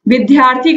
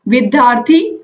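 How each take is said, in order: First: The middle cluster is said as aspirated dhy. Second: The middle cluster is said as aspirated dh. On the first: "विद्यार्थी ध्य अथवा ध के रूप में करते हैं" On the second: "विद्यार्थी ध्य अथवा ध के रूप में करते हैं"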